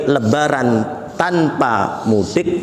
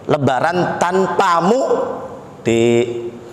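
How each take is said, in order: First: It is spoken smoothly with no break inside mudik. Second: A break splits mudik into mu and dik. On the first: The holiday is spent without going home. "besok itu lebaran nggak usah mudik" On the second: The holiday is spent without you, dear. "kalau tempat berhentinya berbeda"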